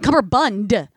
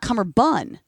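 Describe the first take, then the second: First: The word ends with a D sound. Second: The word ends without a D sound. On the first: The speaker calls it right. "With a D on the end" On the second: The speaker calls it wrong. "not cummerbun"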